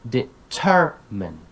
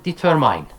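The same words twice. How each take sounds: First: Slow "determine" as de-TER-min; correct syllable stress. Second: "determine" ending like mine, de-ter-MINE; wrong long i in the last syllable of "determine"; mispronounced stress. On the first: Teacher correcting a common error, middle stress. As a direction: punch TER, short final vowel in "determine". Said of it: "teach them the correct pronunciation". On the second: Teacher quoting a common error, mispronounced. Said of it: "commonly mispronounced". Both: Shown as a demonstration.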